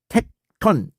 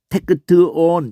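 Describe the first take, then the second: First: The word is said as two tight syllables. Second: Extra vowels split the word into four syllables. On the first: The speaker calls it right. "텍톤 이렇게 발음해요" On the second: The speaker calls it wrong. "이렇게 발음한다는 게 아니야"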